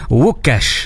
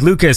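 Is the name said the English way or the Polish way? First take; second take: Polish; English. First: The name is said with Polish sounds. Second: The name is said with English sounds. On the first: "the correct Polish pronunciation is Ukash, like that" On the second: "your name is Lucas"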